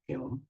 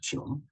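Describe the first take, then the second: First: The word begins with a hard g sound. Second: The word begins with a j sound. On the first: "독일어 발음입니다" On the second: "영어로 어, 발음할 때 지놈이라고 그래요"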